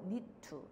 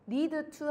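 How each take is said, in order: First: The two words are blended into one sound. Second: Each word is pronounced fully and separately. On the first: The speaker calls it right. "얘도 need to 이 느낌으로 가면 좋을 것 같아" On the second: The speaker calls it wrong. "need to 하지 말고요"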